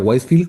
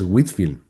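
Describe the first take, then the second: First: The first syllable has a long 'white' vowel. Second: The first syllable has a short 'whit' vowel. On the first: The speaker calls it wrong. "no se pronuncia Whitefield como yo pensaba al principio" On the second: The speaker calls it right. "el nombre es Whitfield"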